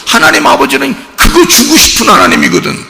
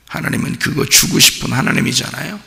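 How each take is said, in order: First: High and louder, proclaiming 그거 주고 싶은; fervent preaching. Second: Said in the usual way. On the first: Acted. Pastor proclaiming the giving God to the church, high and loud. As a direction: proclaim 하나님 아버지는 그거 주고 싶은 하나님이거든 up high and loud.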